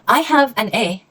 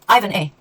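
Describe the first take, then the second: First: Have is said as a full separate word. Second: Have is reduced to a short v sound.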